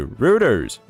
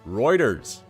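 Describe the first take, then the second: First: The first syllable sounds like 'rout'. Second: The first syllable sounds like 'roid'. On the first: The speaker calls it wrong. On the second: The speaker calls it right.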